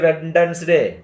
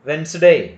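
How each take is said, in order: First: The D sound is pronounced. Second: The D sound is left out. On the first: The speaker calls it wrong. "We don't say" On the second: The speaker calls it right. "ಅಲ್ಲಿ ಡಿ ಉಚ್ಚಾರಣೆ ಆಗುವುದಿಲ್ಲ"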